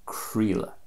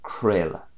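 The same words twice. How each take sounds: First: "creala" as KREE-la; Connacht pronunciation. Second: "creala" as KRAY-la; Munster pronunciation. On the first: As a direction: say "creala" with an E sound in the middle. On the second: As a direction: say "creala" with an A sound in the middle. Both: Shown as a demonstration.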